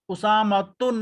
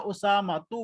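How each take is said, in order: First: The name ends in u followed by n. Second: The name ends in a short u vowel. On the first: The speaker calls it wrong. "उसामतुन नहीं बोला" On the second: The speaker calls it right. "उसामतु बोला"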